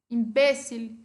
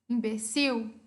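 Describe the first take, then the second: First: It is said with Spanish word stress. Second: It is said with Portuguese word stress.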